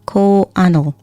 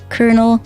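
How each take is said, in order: First: The word is sounded out letter by letter. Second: The word is said in its usual way. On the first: "it should be Ko Kowanal" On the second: "why is it pronounced like that?"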